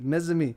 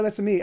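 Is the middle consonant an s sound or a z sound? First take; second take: z sound; s sound. First: The middle consonant is a buzzing z sound. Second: The middle consonant is a hissing s sound. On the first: The speaker calls it right. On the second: The speaker calls it wrong.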